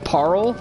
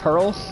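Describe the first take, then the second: First: The vowel sounds like ar in car. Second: The vowel sounds like er in her. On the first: It follows the spelling of the name. The speaker calls it right. "the way it is spelt uh, implies the pronunciation of Parl" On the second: It is how most people say the name. The speaker calls it wrong. "everyone pronounces his name Dark Beast Pearl"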